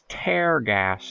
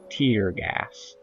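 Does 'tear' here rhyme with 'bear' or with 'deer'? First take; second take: bear; deer. First: 'Tear' is said like 'tare', rhyming with bear. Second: 'Tear' is said like 'teer', rhyming with deer. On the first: The gas rips holes in something. The speaker calls it right. "Tear in infinitesimal holes in reality" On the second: The gas makes eyes water. The speaker calls it wrong. "not tear gas"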